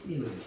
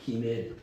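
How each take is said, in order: First: The first consonant is a tense k sound. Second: The first consonant is a plain soft g. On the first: The letter carries a dagesh dot. "강음점을 저 찍으면 끼멜이라고 읽고" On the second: The letter has no dagesh dot. "강음점 없으면 기멜"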